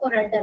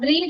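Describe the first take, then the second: First: The vowel is a short 'e' sound. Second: The vowel is a long 'ee' sound. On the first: The speaker calls it right. "നമ്മൾ pronounce ചെയ്യുന്നത് റെഡ് എന്നാണ്" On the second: The speaker calls it wrong. "റീഡ് അല്ല"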